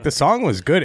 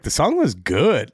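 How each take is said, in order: First: It is said in a flat, matter-of-fact way. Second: It is said in a surprised, emphatic way. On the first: The words are said without real conviction. "It wasn't like" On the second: The words are genuinely meant for the first time. "he was really surprised that it was good"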